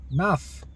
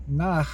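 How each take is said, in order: First: NAF closed on a clear F; F sound ending. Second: NAH ending on an H, not an F; nah sound. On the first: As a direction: demonstrate "Naf", higher, ending in F. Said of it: "turns the H sound into an F sound". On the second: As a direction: demonstrate "Nah" with an open ending. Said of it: "nah sound". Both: Shown as a demonstration.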